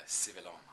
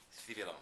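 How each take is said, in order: First: Said in the usual way. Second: Civilon in a Castilian Spanish accent, starting with a "th"; Spanish-accented Civilon, opening on "th"; true Spanish accent. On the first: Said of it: "or if you say it". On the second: Shown as a demonstration. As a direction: say Civilon the Spanish way, lisped first sound. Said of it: "in his true Spanish accent".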